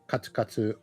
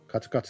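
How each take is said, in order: First: The pitch is high on the first mora. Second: The pitch stays flat after the first mora. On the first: The sound of clip-clopping steps. "For the clip clop one, it's atama atamadaka" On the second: Barely scraping by with no money. "for the katsu katsu no seikatsu giri giri one, it's uh, heiban"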